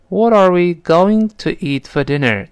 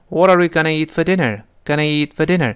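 First: The phrase is said in full as going to. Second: The phrase is reduced to gonna. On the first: "我当时就读成了" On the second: "但语速要是再快一些呢，就可能读成"

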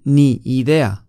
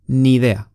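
First: The two words are said separately. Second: The two words are linked into one. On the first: The speaker calls it wrong. "不是ni idea" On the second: The speaker calls it right. "是ni idea"

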